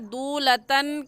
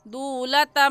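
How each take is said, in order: First: The word ends with an n sound. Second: The word ends with an m sound. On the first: The speaker calls it wrong. "दूलतन कहना गलत है" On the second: The speaker calls it right. "सही है दूलतम"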